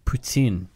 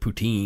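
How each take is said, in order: First: It is said with a Quebec French accent. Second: It is said with an English accent. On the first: "Look at me trying on my uh, Quebecois accent to pronounce the things correctly" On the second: "I'm an Englishman, and I pronounce it poutine"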